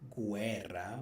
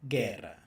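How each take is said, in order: First: A u sound is heard after the g. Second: No u sound is heard after the g. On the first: The speaker calls it wrong. "We're not going to say guerra" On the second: The speaker calls it right. "We're going to say guerra"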